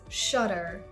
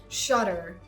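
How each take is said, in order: Both takes have the same delivery.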